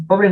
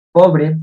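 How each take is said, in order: First: Said in the usual way. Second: "pobre" said loud, with the weight on PO; stress on pobre. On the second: Shown as a demonstration. Student showing the class where "pobre" takes its stress, said loud. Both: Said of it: "Pobre no lleva tilde".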